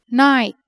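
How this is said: It is said with a British accent.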